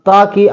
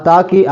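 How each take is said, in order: No difference in how they are said.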